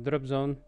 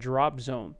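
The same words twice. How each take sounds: First: The stress is on the second word. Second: The stress is on the first word. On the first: The speaker calls it wrong. "He didn't say drop zone or drop zone. He didn't say like that" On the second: The speaker calls it right. "He said drop zone... stress here on the first part"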